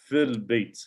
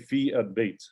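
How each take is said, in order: First: The vowel of 'al' is dropped, words linked. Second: The vowel of 'al' is pronounced separately. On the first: The speaker calls it right. "It's fil bait" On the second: The speaker calls it wrong. "we don't say fi al bait"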